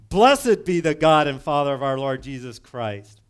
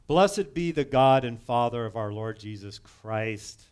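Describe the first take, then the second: First: It is said emphatically, as an exclamation. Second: It is said plainly, without emphasis.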